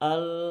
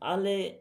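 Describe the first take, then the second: First: A light, slightly nasal l links straight on. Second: An extra e vowel follows the l. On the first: The speaker calls it right. "হালকা লামের এখানে হালকা গুন্না হতে হবে" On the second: The speaker calls it wrong. "আলে এমন কিছুটা হয়ে যাচ্ছিল"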